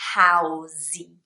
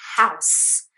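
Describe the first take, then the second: First: An extra vowel is added after the final S. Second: It ends on the S with no added vowel. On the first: The speaker calls it wrong. "you cannot say housey, which is what I hear with Brazilians" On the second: The speaker calls it right. "It's house"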